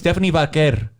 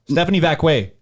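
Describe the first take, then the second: First: The surname is said with an R sound. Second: The surname is said without any R sound. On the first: The speaker calls it right. "Like, there's an R" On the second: The speaker calls it wrong. "Didn't even pronounce the R"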